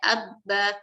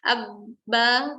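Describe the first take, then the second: First: The lips only touch together lightly. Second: The lips press together with heavy force. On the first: The speaker calls it right. "hanya persentuhan saja" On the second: The speaker calls it wrong. "tidak perlu seperti itu"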